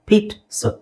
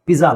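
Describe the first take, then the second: First: The middle consonant is a 'ts' sound. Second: The middle consonant is a 'j' sound. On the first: The speaker calls it right. "It's ಪೀಟ್ ಸ" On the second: The speaker calls it wrong. "ಪಿಜ್ಜಾ ಅಲ್ಲ"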